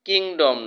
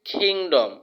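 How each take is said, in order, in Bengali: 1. k বলা হয় বাতাসের ফুৎকার ছাড়া। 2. k বলা হয় জোরালো বাতাসের ফুৎকার দিয়ে। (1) "কিংডম না" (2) "খ এর মতো উচ্চারণ হবে"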